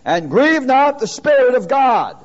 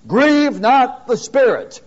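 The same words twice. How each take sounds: First: "grieve" stressed, phrase read with a falling close; emphatic scripture reading. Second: "Grieve" stressed hard, slow and falling; slow emphatic scripture. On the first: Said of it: "Look at it". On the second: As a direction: dictate it slowly, leaning on "Grieve". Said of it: "I want you to put these words down". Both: Shown as a demonstration.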